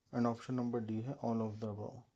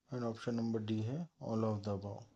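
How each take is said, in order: Both takes have the same delivery.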